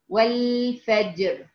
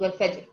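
First: The final r is fully and heavily pronounced. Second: The final r is nearly dropped. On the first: The speaker calls it right. "الراء ساكنة والجيم ساكنة" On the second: The speaker calls it wrong. "بتقتضي بحرف الراء، كأنه مش موجود"

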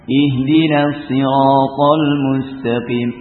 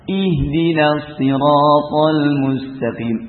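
First: The opening vowel sounds heavy and dark. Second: The opening vowel sounds light and clear. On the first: The speaker calls it wrong. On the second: The speaker calls it right.

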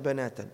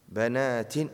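First: The word ends with an 'a' vowel. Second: The word ends with an 'i' vowel. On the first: The speaker calls it wrong. "لا بنات" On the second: The speaker calls it right. "أجيبوا بنات"

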